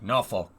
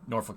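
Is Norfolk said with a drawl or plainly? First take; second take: drawl; plain. First: It is said slowly with a drawl. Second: It is said plainly, without a drawl. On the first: This is how locals down south say it. "you gotta say it with like a draw" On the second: This is how people up north say it. "we call it Norfolk up here"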